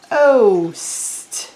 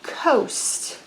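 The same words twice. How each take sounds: First: Said in the usual way. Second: Coast whispered softly, breath only; whispered word. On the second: Shown as a demonstration. Teacher whispering coast to the kids. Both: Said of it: "I just said all the letters from the word".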